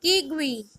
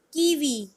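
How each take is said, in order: First: Kiwi said "KEE-gwee"; Spanish pronunciation. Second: Said in the usual way. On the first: Shown as a demonstration. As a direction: say Kiwi with a g before the w. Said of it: "In Spanish". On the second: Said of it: "K is pronounced as".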